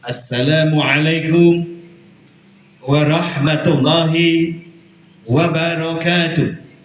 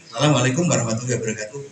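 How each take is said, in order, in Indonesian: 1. Diucapkan dengan berat dan sungguh-sungguh, dengan bobot penuh. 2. Diucapkan dengan ringan dan santai, tanpa bobot. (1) "seperti orang yang sedang membawa sebuah muatan yang nanti muatan ini padat isinya penting" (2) "Ini berarti remeh-temeh"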